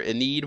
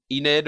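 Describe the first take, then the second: First: Enid said ih-NEED; long ee in the second syllable of Enid; second name option. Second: Enid said EE-nid; first name option. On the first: Vlogger giving viewers a choice, Enid as ih-NEED. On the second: Vlogger giving viewers a choice, Enid as EE-nid. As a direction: stress the first syllable of Enid. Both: Shown as a demonstration. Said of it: "whatever you guys wanna call her".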